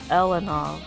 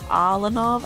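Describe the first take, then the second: First: The first vowel sounds like 'eh'. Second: The first vowel sounds like 'ah'. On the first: The speaker calls it wrong. "I would pronounce it as Elanov" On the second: The speaker calls it right. "I should like emphasize the A"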